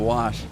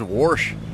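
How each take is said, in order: First: The word is said with its usual standard pronunciation. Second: The word is said the way his mother says it. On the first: This is how the word is normally said. "instead of wash" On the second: This is how the speaker's mother says it. "she says wash"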